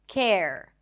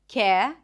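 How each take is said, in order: First: The final R sound is clearly pronounced. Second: The final R sound is dropped. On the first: "focus on bringing the tongue up for the R at the end" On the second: "Japanese speakers might just drop the R"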